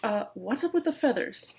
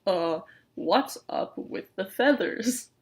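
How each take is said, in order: First: Said in the usual way. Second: Slow, drawn-out wary question; said slowly. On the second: Acted. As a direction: stretch each word out, suspicious. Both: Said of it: "the bearded raven says slowly".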